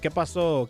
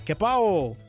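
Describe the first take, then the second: First: The second word is said with an s sound. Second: The second word drops that consonant entirely.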